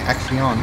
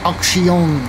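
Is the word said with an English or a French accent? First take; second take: English; French. First: It is said with a plain English accent. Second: It is said with a French-style accent. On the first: "pretty much the same as saying Axion" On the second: "I try to say it with a French accent"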